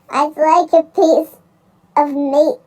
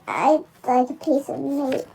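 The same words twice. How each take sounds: First: It is said loudly, booming. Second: It is said quietly and softly.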